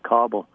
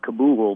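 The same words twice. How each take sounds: First: It is said the way locals say it. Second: It is said the way Americans say it.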